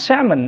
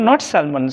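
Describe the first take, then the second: First: Salmon with a silent L, as sam-un; correct salmon. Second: Salmon said with the L, as sal-mon; wrong salmon. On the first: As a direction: say salmon without any L. (সঠিক উচ্চারণ: salmon, L নীরব) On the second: (ভুল উচ্চারণ: salmon, L সহ) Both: Shown as a demonstration.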